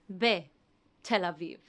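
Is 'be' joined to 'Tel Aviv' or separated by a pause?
paused. There is a pause after 'be'. The speaker calls it wrong.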